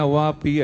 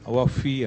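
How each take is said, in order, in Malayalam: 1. നടുവിലെ വ്യഞ്ജനം p ശബ്ദമാണ്. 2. നടുവിലെ വ്യഞ്ജനം f ശബ്ദമാണ്. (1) "ശരിക്കും ഔവാപ്പി അല്ല" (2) "ഔവാഫി ആണ്"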